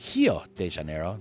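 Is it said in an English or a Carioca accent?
Carioca. It is said in the local Rio accent.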